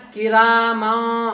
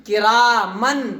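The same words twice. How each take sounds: First: کی را ما very slowly, the نون hidden as a nasal hum; nasal ikhfa. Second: Said in the usual way. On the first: Shown as a demonstration. Teacher showing students the right reading, nasal ikhfa. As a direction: draw out کی را ما through the nose. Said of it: "کیسے پڑھنا ہے؟". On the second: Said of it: "نہیں پڑھنا ہے".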